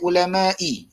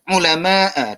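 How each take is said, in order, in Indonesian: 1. Kata ini berakhir dengan vokal i. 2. Kata ini berakhir dengan vokal a. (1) "tak boleh ulama'i salah" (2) "sallamtu ala ulama'a"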